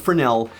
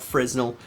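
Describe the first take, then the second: First: The s in the middle is silent. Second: The s in the middle is pronounced. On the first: The speaker calls it right. "It's called a Fresnel" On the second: The speaker calls it wrong. "it's spelt Fresnel, but it's not Fresnel"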